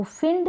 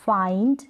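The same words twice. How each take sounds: First: "फिंड" with a short "ih" vowel; wrong short i. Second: "फाइंड" with a long "eye" vowel. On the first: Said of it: "फिंड नहीं पढ़ेंगे". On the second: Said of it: "उच्चारण होगा वो long होगा". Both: Shown as a demonstration.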